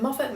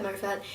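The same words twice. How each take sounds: First: "Moffat" with a short o, MOFF-it; short-o pronunciation. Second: "Moffat" with a long o, MOH-fat; long-o pronunciation. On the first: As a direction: say "Moffat" with first syllable like "off". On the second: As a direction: say "Moffat" with first syllable like "mow". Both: Shown as a demonstration. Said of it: "don't know how to pronounce his name".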